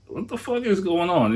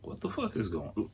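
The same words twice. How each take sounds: First: Mock outburst of disbelief, much higher; incredulous outburst. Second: Softer, baffled under the breath; half-voiced stunned mutter; muttered disbelief. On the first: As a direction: blurt it out in shock. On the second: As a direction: mutter it in confusion. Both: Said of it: "And I'm just like".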